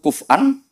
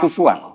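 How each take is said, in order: First: A glottal stop is said in the middle. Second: A w sound is said in the middle. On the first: "bil hamzah" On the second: "yubadilu nal hamzah tawawan ba'da dhammi"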